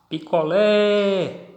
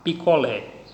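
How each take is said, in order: First: Picolé called high and slow, LÉ held long; calling out. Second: Said in the usual way. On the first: Shown as a demonstration. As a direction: stretch the final LÉ of picolé in a call. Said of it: "tiveram a sua tonicidade". (chamando picolé, agudo, com o LÉ final alongado) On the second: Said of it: "na última sílaba".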